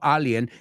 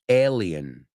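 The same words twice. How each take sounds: First: The word is pronounced with Spanish vowels. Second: The word is pronounced with English vowels. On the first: The speaker calls it wrong. "no alien" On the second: The speaker calls it right. "in English, alien"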